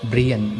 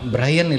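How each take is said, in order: First: The name is pronounced the Irish way. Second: The name is pronounced the usual English way. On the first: It follows the owner's own national pronunciation. The speaker calls it right. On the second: It follows the spelling. The speaker calls it wrong. "பிரையன் இல்லை"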